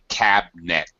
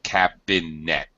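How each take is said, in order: First: The middle vowel is dropped, giving two syllables. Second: The middle vowel is kept, giving three syllables. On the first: "Most English speakers would say cabinet" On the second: "instead of cabinet"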